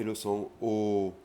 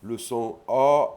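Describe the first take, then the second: First: O as a rounded, closed vowel; second vowel sound. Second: O opened towards A, held long; first vowel sound. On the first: Teacher contrasting two vowels for learners, closed rounded O. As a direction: hold a pure closed O. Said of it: "la deuxième est un O". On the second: Teacher contrasting two vowels for learners, open A-like O. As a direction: draw out an open, A-like O. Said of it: "la première est un A". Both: Shown as a demonstration.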